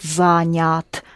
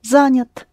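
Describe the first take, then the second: First: The second vowel is a full clear 'ya'. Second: The second vowel is quick and unclear. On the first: It shows the listener how the word is spelled. "if you want to show how it is spelled, then you would pronounce it Занят" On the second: This is the normal everyday pronunciation. "it's not accented, so you go past it quickly. You don't notice it's Я, it's somewhere in between"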